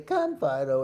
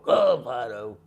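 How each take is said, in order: First: It is said in a calm, even tone. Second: It is said in a sharp, angry tone. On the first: This is the command the dog was trained on. The speaker calls it right. "you got to say, "Come, Fido," every time you talk to him" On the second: The dog may not recognize it as the command. The speaker calls it wrong. "if you then go, "Come, Fido," he may not understand it"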